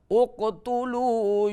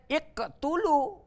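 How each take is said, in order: First: The word begins with an u vowel. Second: The word begins with an i vowel. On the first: The speaker calls it right. "harus selalu dengan dhammah" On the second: The speaker calls it wrong. "Tidak boleh"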